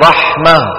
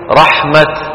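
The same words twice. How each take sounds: First: The word ends with an h sound. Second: The word ends with a t sound. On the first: It is written with a ha. "كتبت بالهاء بنوقف" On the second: It is written with a ta. "كتبت بالتاء شو بنوقف؟"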